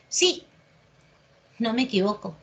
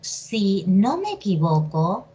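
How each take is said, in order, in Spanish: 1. Una primera palabra tónica va seguida de pausa. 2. Una primera palabra átona sigue sin pausa. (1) "Acá estoy afirmando" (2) "Si yo digo"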